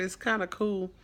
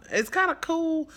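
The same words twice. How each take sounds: First: Said in the usual way. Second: Much higher, louder, gushing; excited repeat. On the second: Shown as a demonstration. Foster mom, pleased her runaway wanted back, gushing higher. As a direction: pitch it up and beam the words kinda cool.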